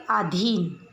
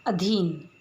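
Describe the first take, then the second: First: अधीन said as "अदीन" with a plain d instead of dh; अधीन without the aspiration, the wrong way; wrong pronunciation. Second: अधीन with a breathy dh, "अधीन"; अधीन said clearly with aspirated dh; correct pronunciation. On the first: (अधीन का अशुद्ध उच्चारण, बिना महाप्राण) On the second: (अधीन का शुद्ध उच्चारण, महाप्राण ध के साथ) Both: Shown as a demonstration. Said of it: "इन्हें शुद्ध और अशुद्ध".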